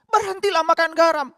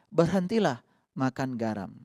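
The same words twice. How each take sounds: First: It is said in a raised, higher voice. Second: It is said in a calm, gentle voice.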